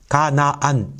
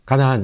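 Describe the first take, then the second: First: The word is drawn out with exaggerated mouth movement. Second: The word is said quickly with minimal mouth movement. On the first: People do not talk like this in daily life. "이렇게 안 하죠" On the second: This is ordinary efficient everyday speech. "평소에 우리들의 일상의 언어라고 하는 건 효율성을 따져야 되거든요"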